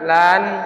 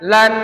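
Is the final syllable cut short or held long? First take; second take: held long; cut short. First: The final syllable is held and drawn out. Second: The final syllable is pressed and cut short. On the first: The speaker calls it wrong. "jangan lan" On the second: The speaker calls it right. "ditekan aja"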